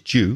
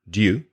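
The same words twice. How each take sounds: First: It starts with a j sound, like jew. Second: It starts with d followed by a y glide. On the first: "the way I say it, which is due, which is J E W, it sounds like" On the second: "which is like D Y U"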